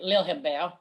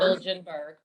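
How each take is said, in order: First: The name is said in a Swedish way. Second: The name is said in an English way.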